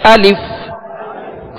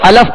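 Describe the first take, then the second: First: The vowel after the L is a short i. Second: The vowel after the L is a short a. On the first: The speaker calls it right. "दुरुस्त तरीका ये है" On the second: The speaker calls it wrong. "ये गलत तरीका है"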